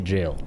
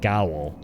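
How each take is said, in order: First: It begins with a j sound. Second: It begins with a hard g sound. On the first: "Nowadays I say jail" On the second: "I would pronounce it as Gowl"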